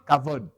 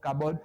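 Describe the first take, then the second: First: The middle consonant is a v sound. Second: The middle consonant is a b sound. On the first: The speaker calls it right. "c'est Kavod" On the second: The speaker calls it wrong. "le B se prononce V"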